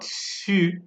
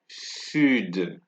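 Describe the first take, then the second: First: The final D sound is left silent. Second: The final D sound is pronounced. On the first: The speaker calls it wrong. "It is not su" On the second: The speaker calls it right. "You can hear the D being pronounced in this word"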